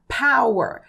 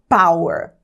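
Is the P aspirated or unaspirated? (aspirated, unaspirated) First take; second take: aspirated; unaspirated. First: The p is released with a puff of air. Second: The p is released without a puff of air. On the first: The speaker calls it right. "A letra P no inglês é aspirada" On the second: The speaker calls it wrong. "e não power"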